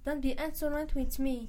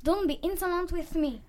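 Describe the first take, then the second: First: Quick, softer mimicking of the teacher; cheeky sing-song imitation; mocking echo. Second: Firm teacher scolding; a touch of a stern teacher; mild scolding at normal volume; stern rebuke. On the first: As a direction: parrot the teacher back to mock her. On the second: Acted. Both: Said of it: "That's enough".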